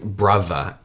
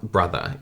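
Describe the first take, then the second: First: The middle consonant is a V sound. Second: The middle consonant is a TH sound. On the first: "when you say like brother" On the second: "instead of bro brother"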